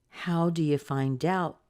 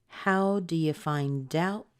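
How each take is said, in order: Both takes have the same delivery.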